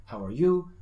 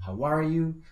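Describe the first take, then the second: First: "How are you?" with YOU prominent; stress on YOU. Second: "How are you?" with a long raised YOU; varied intonation. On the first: Teacher shows one intonation option, "How are you?" louder on YOU. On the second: Teacher shows another intonation option, "How are you?" with a sustained YOU. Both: Shown as a demonstration. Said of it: "Puedes darle diferentes entonaciones".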